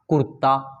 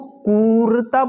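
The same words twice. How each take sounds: First: The first vowel is short and quick. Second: The first vowel is drawn out long. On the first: The speaker calls it right. "मैं इस शब्द को बहुत जल्दी पढ़ रहा हूँ" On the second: The speaker calls it wrong. "सभी बोलेंगे नहीं"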